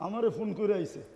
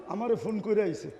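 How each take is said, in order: Both takes have the same delivery.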